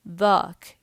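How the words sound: The word is said with a thick, heavy sound. This is how it sounds in eastern Saudi Arabia. "They make it thick"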